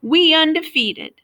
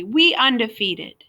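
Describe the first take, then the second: First: High, loud squawk. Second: Slow, self-satisfied boast; smug. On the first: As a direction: squawk it out proudly. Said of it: "Lyle squawked". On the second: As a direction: say it smugly. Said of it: "Junior said smugly". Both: A narrator's reading.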